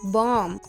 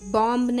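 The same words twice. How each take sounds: First: The final b is not pronounced. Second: The final b is pronounced. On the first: The speaker calls it right. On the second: The speaker calls it wrong.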